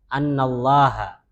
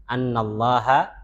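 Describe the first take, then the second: The two takes are said the same way.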